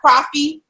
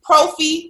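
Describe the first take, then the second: First: The first vowel sounds like 'ah' in coffee. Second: The first vowel sounds like 'oh' in protein. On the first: The speaker calls it wrong. "not the ah in coffee" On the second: The speaker calls it right. "so the protein in coffee"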